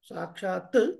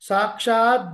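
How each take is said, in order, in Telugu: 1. ఈ పదం అఘోష t ధ్వనితో ముగుస్తుంది. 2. ఈ పదం ఘోష d ధ్వనితో ముగుస్తుంది. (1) "సాక్షాత్ ప్లస్ రామాయణాత్మన" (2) "ఈజ్ ఈక్వల్ టు సాక్షాద్ రామాయణాత్మన"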